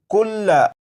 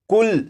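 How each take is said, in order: First: The word ends with an open 'a' vowel. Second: The word ends on the 'l' consonant. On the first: The word is read as written, without stopping. "ये लफ्ज़ लिखा है कुल्ला" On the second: The reader stops on this word. "जब इस लफ्ज़ को वक्फ में पढ़ेंगे तो लाम के ऊपर जो ज़बर है इस ज़बर को नहीं पढ़ेंगे"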